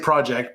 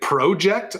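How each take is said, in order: First: The first vowel is a short O sound. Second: The first vowel is a long O sound. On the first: The speaker says it this way. "I don't say pro. I say project" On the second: Some Canadians say it this way. "Canadian Project has a long O"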